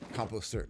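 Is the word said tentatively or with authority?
tentatively. It is said tentatively, like a question.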